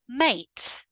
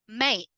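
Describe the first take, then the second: First: The T is clearly and fully pronounced. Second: The T is cut off by a brief catch. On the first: It sounds very correct. "pronounce all of the words with a fully emphasized T" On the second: It sounds informal. "now let's look at the other way"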